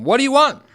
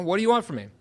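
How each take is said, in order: First: High, loud shout out to someone; yelled challenge. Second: Raised pitch without a full shout; milder retold yell. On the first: Retold or imitated. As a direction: yell it across at a stranger. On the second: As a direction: call out the demand, holding back the volume. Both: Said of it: "I yell out to him".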